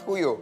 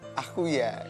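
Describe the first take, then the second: First: The final word ends with an 'o' vowel. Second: The final word ends with an 'a' vowel. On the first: The speaker calls it wrong. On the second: The speaker calls it right.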